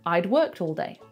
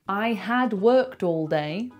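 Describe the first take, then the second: First: The word 'had' is contracted onto 'I'. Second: The word 'had' is said in full. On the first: The speaker calls it right. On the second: The speaker calls it wrong.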